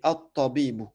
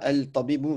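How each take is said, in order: First: The l merges into a doubled t sound. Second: The l of the article is clearly pronounced. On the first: The speaker calls it right. "mais at-tabibu" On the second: The speaker calls it wrong. "t'es pas censé dire al-tabibu"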